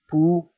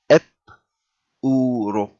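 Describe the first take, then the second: First: The p joins the next vowel with no vowel before it. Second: A vowel comes before the p, forming its own syllable. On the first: "So so this will be one syllable" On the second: "it's pronounced as if there is an a before it, and this will be the syllable itself"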